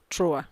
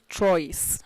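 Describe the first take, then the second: First: The final consonant is silent. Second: The final consonant is sounded. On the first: The speaker calls it right. "It is pronounced trois" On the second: The speaker calls it wrong. "you don't pronounce this trois"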